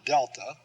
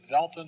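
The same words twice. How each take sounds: First: The word begins with a hard d sound. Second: The word begins with a soft th sound. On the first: The speaker calls it wrong. "not delta" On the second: The speaker calls it right. "Notice I said delta"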